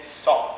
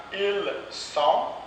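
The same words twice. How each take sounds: First: "sont" with "ils" dropped; spoken sont. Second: Said in the usual way. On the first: Shown as a demonstration. Teacher models reduced "ils sont". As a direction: say only "sont".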